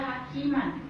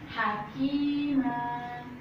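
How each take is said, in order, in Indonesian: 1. Kata itu berakhir dengan suku kata pendek dan n. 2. Kata itu berakhir dengan vokal a yang panjang dan ditahan. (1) "tidak boleh dibaca hakiman, itu bacaan yang salah" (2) "Harus panjang dua harokat"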